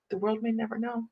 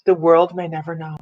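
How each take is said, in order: First: Hushed advert quote. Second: Said in the usual way. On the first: Retold or imitated. Woman recalling the Tootsie Pop advert, in a hushed echo. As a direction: say it small and quiet, like a tagline. Repeats the advert line far softer.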